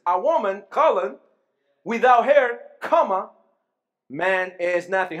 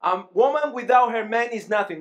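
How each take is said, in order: First: "without her" loud, with a break before "man is nothing"; pauses at colon and comma. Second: Said in the usual way. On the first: Shown as a demonstration. Preacher rereading the line with punctuation for the congregation. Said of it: "you will see the difference". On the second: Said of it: "let's use punctuation now".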